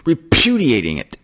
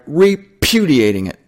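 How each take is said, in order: First: A hint of a stammering cartoon pig; Porky Pig. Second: Said in the usual way. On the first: Preacher jokingly voicing the word as Porky Pig, lightly. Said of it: "Porky Pig would say". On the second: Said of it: "Sounds like something that, uh, Porky Pig would say".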